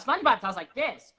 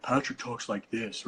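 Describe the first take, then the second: First: Much higher, bright, pingy SpongeBob; squeaky, bright cartoon sponge. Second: Slow, dark, open-throated Patrick talk; a hint of a dopey starfish. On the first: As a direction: raise the larynx for SpongeBob. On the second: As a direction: drop the larynx like Patrick.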